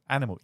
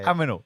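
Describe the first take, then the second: First: The n sound comes before the m. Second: The m and n sounds are swapped. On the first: The speaker calls it right. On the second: The speaker calls it wrong. "aminals instead of the other way around"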